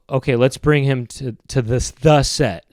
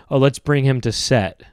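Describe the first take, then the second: First: THE leaned on as a full "thuh" before set; deliberate, stressed THE before the final word. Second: Said in the usual way. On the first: Shown as a demonstration. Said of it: "I would say". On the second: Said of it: "they say the word set".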